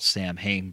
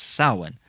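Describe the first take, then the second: First: The word is sounded out as it is spelled. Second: The word is said unlike its spelling. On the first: The speaker calls it wrong. "It's spelt Samhain" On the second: The speaker calls it right. "but it's pronounced Samhain"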